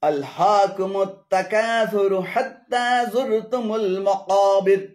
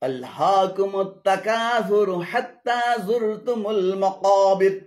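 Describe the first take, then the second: No difference in how they are said.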